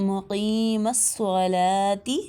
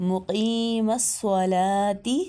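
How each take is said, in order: Both takes have the same delivery.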